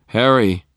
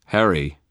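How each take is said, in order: First: Loud, raised call. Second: Measured, grave address; serious. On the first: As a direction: call to someone in another room. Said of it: "Michael called". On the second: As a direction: get his attention soberly. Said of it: "his voice serious". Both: A narrator's reading.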